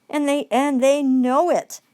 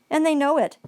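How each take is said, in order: First: "know" leaned on, drawn out slowly; slow it right down and land on "know"; slow emphatic repeat. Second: Said in the usual way. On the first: Shown as a demonstration. Repeating it to the audience, slow and emphatic on "know".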